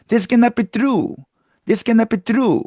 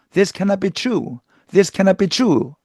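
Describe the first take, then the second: First: Hispanic-accented English with hard, tense t and k. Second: This cannot be true with aspirated t blending into r, "chru"; standard English pronunciation. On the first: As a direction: harden the consonants like a Hispanic speaker, higher pitch. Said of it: "된소리 발음이 나옵니다". (된소리가 나는 히스패닉 억양) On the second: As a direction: say true with an airy English tr, higher pitch. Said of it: "이거 갖다가". (원어민식 tr 발음으로 true) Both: Shown as a demonstration.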